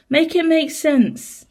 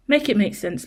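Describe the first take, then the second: First: "Make it make sense" drawn out slowly and higher, each word separate; slow exasperated plea. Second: Said in the usual way. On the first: Real, not acted. Owner pleading with her cat, slow and higher. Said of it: "exasperated plea to the cat". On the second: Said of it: "plea to Gemini".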